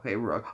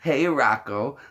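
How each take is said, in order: First: The voice is pitched lower. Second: The voice is pitched higher.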